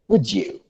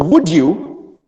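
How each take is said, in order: First: The d and y merge into a j sound. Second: The d and y are said separately.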